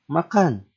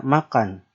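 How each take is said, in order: First: "makan" as a sharp order, higher and louder, falling; "makan" barked as an order with a hard fall; commanding tune. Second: Said in the usual way. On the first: Shown as a demonstration. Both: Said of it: "tinggal beda intonasi".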